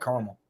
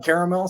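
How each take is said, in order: First: "caramel" said KAR-mul; quick two-beat KAR-mul for "caramel"; two-syllable caramel. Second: "caramel" said KAIR-uh-mel; lifted KAIR-uh-mel for "caramel"; three-syllable caramel. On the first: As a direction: drop the middle syllable of "caramel". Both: Shown as a demonstration. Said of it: "I do both".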